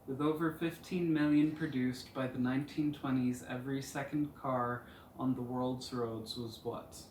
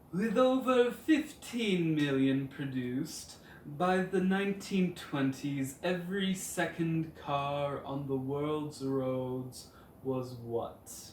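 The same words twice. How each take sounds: First: It is said in a normal voice. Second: It is said in a put-on voice.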